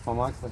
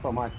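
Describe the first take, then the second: First: The word ends with an L sound. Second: The word ends without an L sound. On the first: The speaker calls it right. "It's pamakle" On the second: The speaker calls it wrong. "It's not pamake"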